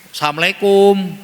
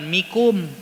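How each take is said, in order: First: Every syllable of the greeting is said. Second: Only the last two syllables are said. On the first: The speaker calls it right. "ajarkan anak-anak kita ucapan salam dengan baik" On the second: The speaker calls it wrong. "Bukan mikum"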